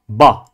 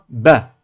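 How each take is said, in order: First: The vowel is a full open a. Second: The vowel lies between a and e. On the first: The speaker calls it wrong. "non pas Ba" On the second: The speaker calls it right. "un intermédiaire entre le A et le E"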